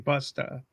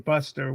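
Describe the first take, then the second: First: It is said in a down-east Maine accent. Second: It is said in a general American accent. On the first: "We say" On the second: "Don't say"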